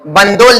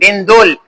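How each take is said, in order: First: The name is said with an 'a' vowel: Bandol. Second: The name is said with an 'i' vowel: Bindol. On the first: The speaker calls it wrong. "बंदोल नहीं" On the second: The speaker calls it right. "बिंदोल ये गांव का नाम है"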